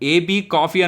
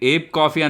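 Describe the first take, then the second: First: The name is spelled out as two letters. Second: The name is said as one short word. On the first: "ఏబీ coffee అని ఉంది" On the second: "మరి ఏబ్ coffee అనాలా"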